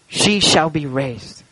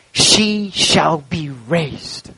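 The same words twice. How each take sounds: First: Slow, softer words falling to rest; a grieving father's quiet certainty; weeping father. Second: Slow, drawn-out words with a rising end; a grieving father's slow hope; weeping father. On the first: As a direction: let the grief settle as the line drops. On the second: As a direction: hold back tears and lift the last word. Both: A narrator's reading. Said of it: "he began to weep bitterly".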